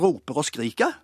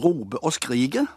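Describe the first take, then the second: First: The word endings use an æ-like vowel. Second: No r is heard in either word ending. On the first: "Der er det ikke å, men der er det æ" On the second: "Der er r-en vekke overalt i slutten av i endelstavelsene"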